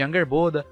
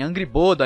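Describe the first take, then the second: First: The first part sounds like 'anger', run together. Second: The first part sounds like 'angry', then 'boda'. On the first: The speaker calls it right. "ao invés de Angerboda" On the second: The speaker calls it wrong. "tipo falarem Angry Boda"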